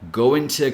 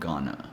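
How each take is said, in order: First: It is said in full as two words. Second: It is reduced to the single word 'gonna'. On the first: "going to can also become" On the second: "become gonna"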